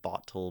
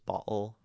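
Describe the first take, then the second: First: The middle consonant is a clear t sound. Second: The middle consonant is a glottal stop.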